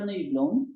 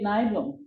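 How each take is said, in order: First: The name is pronounced the Swedish way. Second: The name is pronounced the English way. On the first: "In uh, Swedish, we say" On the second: "in uh, English, it will be"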